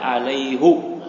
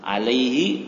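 First: The word ends with a u vowel. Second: The word ends with an i vowel. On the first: "boleh dibaca alaihu" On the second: "Alaihi boleh dibaca alaihu"

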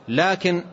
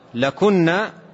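First: Long a before k, then i after it. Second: Short a before k, then u after it. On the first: It introduces a correction, meaning 'but'. "بكسر الكاف وألف قبلها تنطق لكن" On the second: It addresses the women directly, meaning 'for you'. "بضم الكاف وبدون ألف قبلها"

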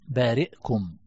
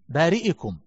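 First: The hamza is silent with no vowel. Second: The hamza carries a short i vowel. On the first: It is an accepted variant reading. "الإسكان هنا" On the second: It is the regular genitive case ending. "بارئكم لأنها مجرورة"

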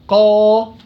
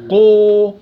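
First: The vowel is a pure open 'a' sound. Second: The vowel is rounded toward an 'u' sound. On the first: The speaker calls it right. "لا قا قا، صح" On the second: The speaker calls it wrong. "واو قو"

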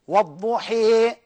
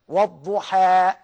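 First: The final vowel leans strongly toward 'ee'. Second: The final vowel is a fully open 'a'. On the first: "لما أجي أميل أقول إيه؟" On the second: "أهو الفتحة"

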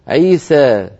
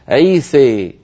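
First: The final vowel leans slightly toward 'e'. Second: The final vowel leans strongly toward 'e'. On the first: "يميل هذه الألفات قليلا" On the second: "الإمالة الكبرى"

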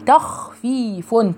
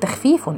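First: The kha sound is heavy and full. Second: The kha sound is light and thin. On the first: The speaker calls it right. "رققي التاء وفخمي الخاء" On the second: The speaker calls it wrong. "اوعوا تقولوا تخفيف"

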